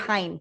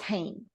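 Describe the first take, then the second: First: It is said with an American English pronunciation. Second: It is said with the Dutch pronunciation. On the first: The speaker calls it wrong. "for those U S people like me. We do spell it. We say it like it's H E I N. We say it Hein" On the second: The speaker calls it right. "it's pronounced Hein because you pronounced it that way"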